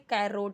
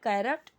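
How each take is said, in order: First: The second vowel is a full 'o' sound. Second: The second vowel is a short 'uh' sound. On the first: The speaker calls it wrong. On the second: The speaker calls it right.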